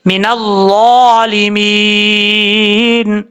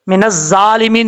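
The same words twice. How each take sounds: First: मिनज़्ज़ालिमीन very slow, ज़ा full and heavy, no whistle; correct heavy ज़ा. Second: मिनज़्ज़ालिमीन quick, ज़ा light and hissing like ज़; wrong thin ज़ा. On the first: Teacher shows students the right recitation, slow and heavy. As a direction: stretch मिनज़्ज़ालिमीन out, ज़ा thick with no hiss. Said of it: "इस ज़ा को पुर पढ़ना है". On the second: Teacher shows students the common mistake, thin and whistled. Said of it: "नहीं पढ़ना". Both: Shown as a demonstration.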